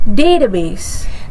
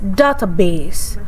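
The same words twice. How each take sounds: First: The stress is on the first syllable. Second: The stress is on the second syllable. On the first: The speaker calls it right. "the correct pronunciation is database" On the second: The speaker calls it wrong. "may place stress on the second syllable or change the vowel quality"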